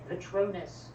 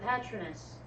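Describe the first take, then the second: First: The word is pronounced the British way. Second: The word is pronounced a non-British way. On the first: This is how the films say it. "a lot of those British words got pronounced Britishly" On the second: This is how the speaker imagined it while reading. "In my head, that was a Patronus"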